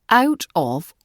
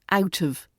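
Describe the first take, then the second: First: Both words are said fully and separately. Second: The words blur together into a quick 'outta'.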